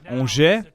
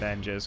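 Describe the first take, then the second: First: It is said with a French pronunciation. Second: It is said as spelled, English-style. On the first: The speaker calls it right. "That's how you say it" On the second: The speaker calls it wrong. "I just read it as that. I don't know any French"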